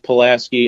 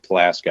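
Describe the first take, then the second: First: The name is said the standard outsider way. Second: The name is said the local regional way. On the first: This is how people outside the town say it. The speaker calls it right. "I think it's supposed to be pronounced Pulaski" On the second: This is how people living there say it. The speaker calls it wrong. "everyone that lived there called it Pulaski. It's probably wrong"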